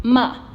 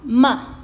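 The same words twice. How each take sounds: First: The pitch falls sharply and briefly. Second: The pitch falls sharply and briefly.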